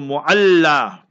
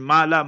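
First: The word is said carefully, with all sounds. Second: The word is said sloppily, with sounds dropped. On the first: The speaker calls it right. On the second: The speaker calls it wrong.

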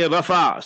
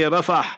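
First: The word ends without a final h sound. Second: The word ends with a clear final h sound. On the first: "you say Rafah. So that is the English terminology" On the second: "In Arabic, you say Rafah. Ra-fa-ha"

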